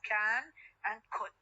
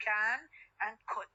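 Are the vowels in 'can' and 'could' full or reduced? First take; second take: full; full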